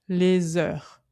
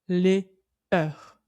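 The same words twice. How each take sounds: First: The s is linked onto the next word. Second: The two words are kept separate, without liaison. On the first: The speaker calls it right. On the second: The speaker calls it wrong.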